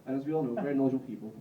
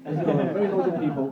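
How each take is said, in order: First: Said in the usual way. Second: Louder, laughing through the phrase. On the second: Real, not acted. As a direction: repeat it cracking up. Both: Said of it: "that's hilarious".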